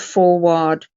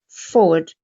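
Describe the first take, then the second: First: The second syllable has a full 'ar' sound. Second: The second syllable has a weak schwa. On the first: The speaker calls it wrong. "A R makes the sound of R" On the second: The speaker calls it right. "forward instead of forward"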